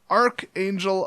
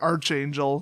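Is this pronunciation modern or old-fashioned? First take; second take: modern; old-fashioned. First: It is said in the ordinary modern way. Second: It is said in an old-fashioned English way.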